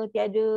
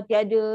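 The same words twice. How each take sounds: No difference in how they are said.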